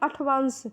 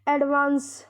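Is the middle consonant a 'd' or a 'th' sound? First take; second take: th; d. First: The middle consonant is a 'th' sound. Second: The middle consonant is a 'd' sound. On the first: The speaker calls it wrong. "बहुत सारे लोग इसको करेंगे अठवांस" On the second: The speaker calls it right. "अंग्रेजी का एक शब्द है एडवांस"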